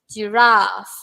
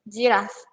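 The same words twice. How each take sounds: First: The vowel in the second syllable is long. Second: The vowel in the second syllable is short. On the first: The speaker calls it right. "when I pronounce ra is long" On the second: The speaker calls it wrong. "it's not that mm, correct pronunciation"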